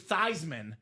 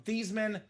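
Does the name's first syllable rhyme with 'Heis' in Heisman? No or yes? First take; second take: Yes; No. First: The first syllable rhymes with Heis in Heisman. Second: The first syllable does not rhyme with Heis. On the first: This is the new pronunciation chosen to match the trophy. "so it could be Theismann for the Heisman" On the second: This is the family's earlier pronunciation. "change the pronunciation of your last name from Theismann"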